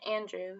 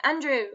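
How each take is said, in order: First: Said in the usual way. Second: Mock-British, louder and higher; British accent. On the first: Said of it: "we say his name in a British accent". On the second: Friends' running joke on Andrew's name, British accent. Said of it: "say his name in a British accent".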